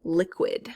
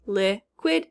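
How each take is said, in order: First: Said in the usual way. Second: LIQUID split as "lih ... kwid"; syllable by syllable. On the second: Shown as a demonstration. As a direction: pause between the syllables of LIQUID. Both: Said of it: "second syllable".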